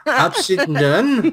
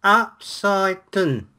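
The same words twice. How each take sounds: First: Drawn-out words breaking into a laugh; laughing slow try. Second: Slow trial read. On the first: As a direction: stretch it slowly while cracking up. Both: Pretend. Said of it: "tries to read upside down".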